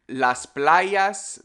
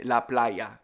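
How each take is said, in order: First: Said in the usual way. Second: "la playa" with no S sound for the plural; dropped S. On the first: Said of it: "we would say la playa". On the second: Shown as a demonstration. Teacher showing Caribbean plurals, dropped S. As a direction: say "la playa", plural S left silent. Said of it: "We just don't say the S".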